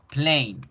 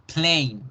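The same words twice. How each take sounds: The two takes are said the same way.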